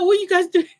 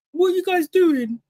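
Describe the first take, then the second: First: Higher, louder what; mock confrontation again. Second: Higher, challenging what are you guys doing; imitating him turning on the boys; mock confrontation. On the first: Host repeating contestant's challenge, mock. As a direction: repeat his challenge, hammed up. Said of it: "He's like". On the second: Retelling a contestant confronting smirking boys, mock. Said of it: "he turned around like".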